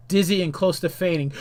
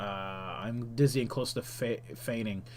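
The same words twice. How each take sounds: First: Said in the usual way. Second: Low, soft, trailing mumble; quiet offhand read-through; subdued repeat. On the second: Real, not acted. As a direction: drop down low and quiet, stumbling slightly. Skims the repeated attack text.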